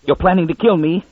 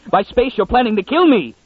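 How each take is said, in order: First: Higher snarling accusation. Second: Much higher, cracking snarl of terror; frantic snarl. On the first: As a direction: snarl it at the others in panic. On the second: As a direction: fling it out as a panicked scream-snarl. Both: A narrator's reading. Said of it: "Munn snarled".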